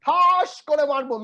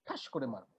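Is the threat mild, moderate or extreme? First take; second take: extreme; mild. First: It sounds like an extreme, terrifying threat. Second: It sounds like a mild, casual threat.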